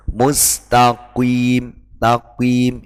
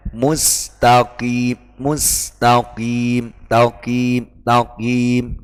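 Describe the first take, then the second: First: Mustaqim said as mustakuim, slow, with a u glide after q; the forbidden reading; wrong pronunciation. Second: Mustaqim said slowly with thick q and clean i; correct pronunciation. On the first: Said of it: "itu tidak boleh". (contoh bacaan salah mustakuim) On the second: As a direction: model the correct reading. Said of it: "yang benar". (bacaan yang benar mustaqim) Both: Shown as a demonstration.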